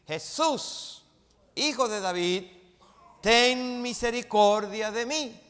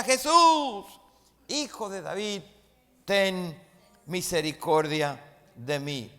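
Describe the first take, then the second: First: A raised, pleading call, higher and louder; a beggar shouting for mercy from the roadside; crying out. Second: A full yell, much higher and louder on Jesús; the blind man shouting over the crowd to Jesús, loud and high. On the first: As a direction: call out to Jesús for mercy, loud and high. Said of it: "comenzó a dar voces". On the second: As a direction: cry out even louder than the crowd. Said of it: "gritaba más alto". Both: Retold or imitated.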